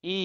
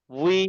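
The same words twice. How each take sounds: First: "ই" as a plain ee with no glide; bare i. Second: "উই" as wee with a w onset; w-glide wi. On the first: Teacher contrasting two sounds for students, bare ee on "ই". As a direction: say only the vowel "ই", without w. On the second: Teacher showing students the w sound, "উই" glided from w into ee. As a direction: start "উই" on rounded lips, then ee. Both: Shown as a demonstration. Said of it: "ওয়াওজের উচ্চারণ হবে ডাব্লিউ".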